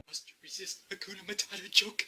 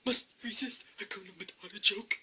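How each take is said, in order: First: Said in the usual way. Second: Whispered to himself; breathy whispered repeat. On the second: Shown as a demonstration.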